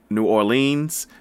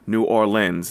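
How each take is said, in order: First: The second part of Orleans does not sound like 'lens'. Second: The second part of Orleans sounds like 'lens'. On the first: The speaker calls it wrong. "not New Orleans" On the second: The speaker calls it right. "OR as in like a boat OR and lens as in camera lens"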